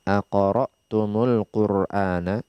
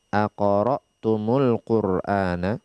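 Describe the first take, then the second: Both takes have the same delivery.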